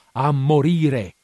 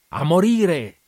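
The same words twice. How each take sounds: First: Loud, drawn-out repeat; slow, loud, exultant repeat; slow shout. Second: High, loud cry of a man bent on dying; loud, high manic shout. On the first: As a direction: stretch each syllable in a manic cry. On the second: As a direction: fling it out with manic glee. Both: A narrator's reading. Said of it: "gridò".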